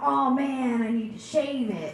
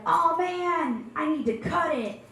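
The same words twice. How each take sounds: First: The milder complaint, said the same; exasperated groan. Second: Exasperated groan. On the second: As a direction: sound truly overwhelmed by it. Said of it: "when you're like". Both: Retold or imitated.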